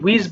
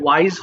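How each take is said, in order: First: The vowel sounds like 'ee'. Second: The vowel sounds like 'eye'. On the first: The speaker calls it wrong. "এটা হয়তো অনেকে উইজ বলে ফেলতে পারো" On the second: The speaker calls it right. "এটা ওয়াইজ হবে"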